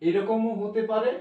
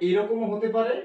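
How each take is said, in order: No difference in how they are said.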